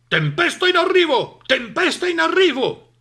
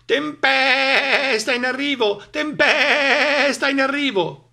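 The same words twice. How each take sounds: First: Loud, high barky dog voice; barking dog. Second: Slow, loud, high bleat; bleating sheep. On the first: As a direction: bark the warning urgently. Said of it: "abbaiò Cane". (Cane che abbaia l'allarme) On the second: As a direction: stretch the words like bleating sheep. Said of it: "belarono le pecore". (pecore che belano spaventate) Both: A narrator's reading.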